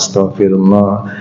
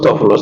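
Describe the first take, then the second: First: It is said slowly and calmly. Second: It is said quickly in a rapid repeated string. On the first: It is a calm, sincere plea for forgiveness. The speaker calls it right. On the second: It is a mechanical count with no medical benefit. The speaker calls it wrong.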